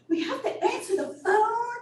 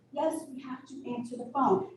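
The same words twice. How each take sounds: First: High, whiny mock protest; exaggerated high-pitched retold whine; upset staff. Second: Said in the usual way. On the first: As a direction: imitate staff complaining in dismay, laughing. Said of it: "the staff were just so upset".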